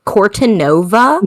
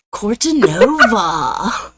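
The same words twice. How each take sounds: First: Slow American take on the Italian name; American accent. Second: Slow, drawn-out surfer-dude impression; mock it like a surfer dude. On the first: Shown as a demonstration. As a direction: stretch Cortanova in an American accent, questioning. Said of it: "I sounded so American there". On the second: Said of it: "Sounded like a surfer dude".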